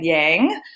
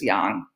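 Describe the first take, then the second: First: It is said with a common American pronunciation. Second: It is said with the Chinese pronunciation. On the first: The speaker calls it wrong. "Most Americans call it yang" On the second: The speaker calls it right. "the proper um, way to pronounce it is yang"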